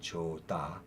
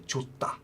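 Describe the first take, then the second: First: The middle consonant is soft and unaspirated. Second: The middle consonant is hard and aspirated. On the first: The speaker calls it wrong. "you wouldn't say 좋다" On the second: The speaker calls it right. "you say 좋다. So it becomes uh, it, it, it, it becomes a harder sound"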